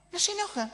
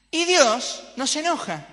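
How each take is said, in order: First: «No se enoja» repetido muy agudo, sin subir el volumen; repetición aguda. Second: «Dios» dicho más agudo y más fuerte; enfático. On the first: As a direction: eco agudo y maravillado de «No se enoja». («No se enoja» en tono muy alto) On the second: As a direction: remarcar con asombro que «no se enoja». («Y Dios no se enoja», agudo y fuerte) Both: Shown as a demonstration.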